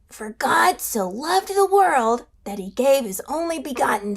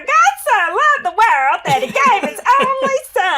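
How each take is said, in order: First: It is said in Evan's puppet voice. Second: It is said in Beulah's puppet voice.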